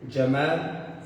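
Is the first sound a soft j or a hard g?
soft j. It begins with a soft j sound.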